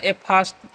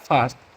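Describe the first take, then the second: First: The word begins with the syllable ef. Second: The word begins with a plain f sound. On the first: The speaker calls it wrong. "अगर एफ का एफ पढ़ते तो एफ फास्ट हो जाता" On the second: The speaker calls it right. "एफ का उच्चारण फ करेंगे"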